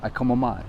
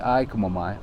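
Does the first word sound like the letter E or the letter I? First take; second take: letter I; letter I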